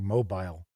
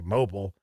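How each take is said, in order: First: It is said like the Alabama city name. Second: It is said the speaker's usual way. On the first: This is how some other people say it. The speaker calls it wrong. "some people say mobile, which is like, okay, isn't that Alabama?" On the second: This is how the speaker normally says it. The speaker calls it right. "I always say mobile"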